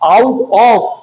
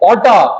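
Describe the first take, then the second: First: Both words are said fully and separately. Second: The words are run together into one reduced word. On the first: Standard language. The speaker calls it right. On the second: Informal slang. The speaker calls it wrong.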